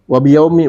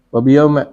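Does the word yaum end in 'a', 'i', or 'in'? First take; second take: i; a. First: The word ends in a short i vowel. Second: The word ends in a short a vowel. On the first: "Wa afsah" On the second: "boleh juga dibaca fathah"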